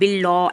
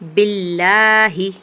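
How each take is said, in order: First: The L is pronounced thick and heavy. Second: The L is pronounced thin and light. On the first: The speaker calls it wrong. "ऐसे नहीं पढ़ना है" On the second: The speaker calls it right. "इस लाम को हम बारीक पढ़ेंगे"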